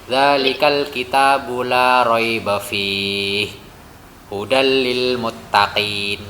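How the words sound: There is a pause after fihi.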